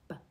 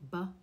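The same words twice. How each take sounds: First: The sound is clipped with no vowel after. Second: The sound has a short vowel after it. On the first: The speaker calls it right. "we slice across our lips to cut the schwa off" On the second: The speaker calls it wrong. "So we don't want to say B"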